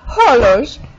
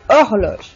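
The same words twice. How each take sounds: First: The starting h sound is pronounced. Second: The starting h sound is silent. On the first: The speaker calls it wrong. "They don't say hor-" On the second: The speaker calls it right. "They say horloge"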